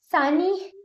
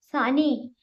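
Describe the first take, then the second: First: A much higher, louder cry rising at the end; anguished scream. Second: Calling her name out, raised and falling; a sharp anguished yell of her name; roared name. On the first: Adithyan screaming for the dying Saani on the beach. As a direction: scream her name across the beach. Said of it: "ആദിത്യന്റെ നിലവിളി കടൽ തീരത്ത് മുഴങ്ങി". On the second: Adithyan roaring as Saani is shot, a raised shout. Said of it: "Adithyan അലറി". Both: Acted.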